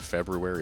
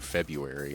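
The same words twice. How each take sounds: First: The first R is clearly pronounced. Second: The first R is dropped. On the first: "do you pronounce the R or not?" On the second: "do you pronounce the R or not?"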